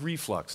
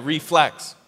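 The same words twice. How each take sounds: First: "reflux" as the joke slip; wrong word. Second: "Reflex" said as the right word, a little louder; corrected word. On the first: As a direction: say "reflux", as in acid reflux. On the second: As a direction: land firmly on "Reflex". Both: Shown as a demonstration. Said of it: "No, that's not what I'm saying".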